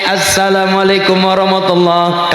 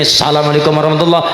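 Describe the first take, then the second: First: The greeting is said slowly and carefully. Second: The greeting is said fast and rushed. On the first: The speaker calls it right. "sing kudune" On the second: The speaker calls it wrong. "karena kecepatan"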